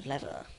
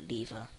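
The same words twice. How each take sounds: First: "lever" said LEV-er; "lever" with first syllable like "lev"; short-e lever. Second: "lever" said LEE-ver; "lever" with first syllable like "lee"; long-e lever. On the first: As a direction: say "lever" with a short e, rhyming with "never". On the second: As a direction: say "lever" with a long ee, rhyming with "beaver". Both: Shown as a demonstration. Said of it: "however you want to call it".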